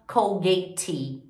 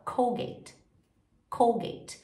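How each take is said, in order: First: Three-syllable wrong "Colgate"; wrong voiced E. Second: "Colgate" ending on T; two-syllable English "Colgate"; silent E. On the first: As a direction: pronounce the final E of "Colgate" mistakenly. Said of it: "a gente não fala". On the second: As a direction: model "Colgate" as "COHL-gate". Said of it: "a gente fala". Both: Shown as a demonstration.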